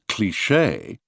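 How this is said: Said with heavy stress on the final syllable. This is how Americans say it. "the American pronunciation cliché"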